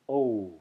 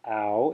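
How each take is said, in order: First: The vowel is a pure o sound. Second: The vowel sounds like ow in cow. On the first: The speaker calls it right. "it's o" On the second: The speaker calls it wrong. "it's not ow"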